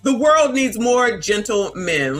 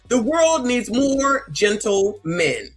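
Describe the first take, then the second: First: It is said at normal speed. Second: It is said slowly and deliberately.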